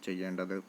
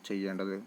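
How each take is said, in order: Both takes have the same delivery.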